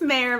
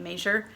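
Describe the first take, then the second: First: The name begins with a Y sound. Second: The name begins with a J sound. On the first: The speaker calls it right. "it's Mayor, but that's okay" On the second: The speaker calls it wrong. "he mispronounced my name"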